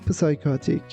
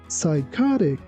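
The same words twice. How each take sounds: First: The initial P is pronounced. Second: The initial P is silent. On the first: The speaker calls it wrong. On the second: The speaker calls it right.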